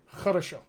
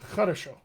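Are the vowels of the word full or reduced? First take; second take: reduced; reduced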